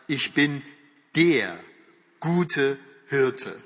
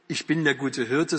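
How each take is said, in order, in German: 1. Das Wort 'der' wird betont. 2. Das Wort 'der' wird nicht betont. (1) "sondern er sagt" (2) "Und Jesus sagt nicht"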